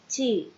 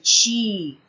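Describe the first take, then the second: First: The T is clean, without a hissing sound. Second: The T is hissed, sounding like 'ch'. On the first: The speaker calls it right. "eu vou falar T" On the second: The speaker calls it wrong. "a gente acaba falando ti"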